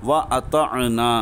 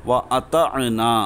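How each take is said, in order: No difference in how they are said.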